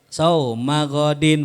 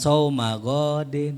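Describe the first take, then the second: First: The vowel in godin is short. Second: The vowel in godin is drawn out long. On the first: The speaker calls it right. "Pendek. Sauma godin begitu" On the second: The speaker calls it wrong. "Bukan sauma godin ya gitu. Ada gak yang baca panjang?"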